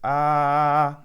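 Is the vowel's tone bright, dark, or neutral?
neutral. The vowel has a neutral, ordinary tone. "that's in my speaking voice"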